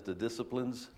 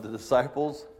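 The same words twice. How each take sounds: First: "disciplines" said in place of "disciples", with the extra syllable; Medea's mispronunciation. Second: Said in the usual way. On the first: Retold or imitated. Preacher quoting Mother Medea's slip, saying "disciplines". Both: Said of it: "as Mother Medea says".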